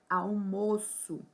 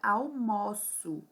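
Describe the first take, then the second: First: The stressed o vowel is closed. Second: The stressed o vowel is open.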